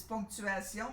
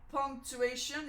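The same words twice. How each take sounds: First: "ponctuation" said the French way, nasal "pon", stress on the last syllable; French pronunciation. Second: Said in the usual way. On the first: Shown as a demonstration. Seamstress showing viewers the French word, French pronunciation. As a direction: say "ponctuation" like a French speaker would. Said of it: "In French". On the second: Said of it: "Is that a word in English?".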